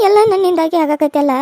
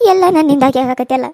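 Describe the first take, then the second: First: Put-on slow, loud grieving old woman; slow lament. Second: Put-on louder grieving old woman; self-blaming old mother. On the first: Old mother repeating her self-blame, slow lament. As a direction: drag the lament out slowly. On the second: Old mother blaming herself for the fight, grieving. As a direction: lament it is all her fault.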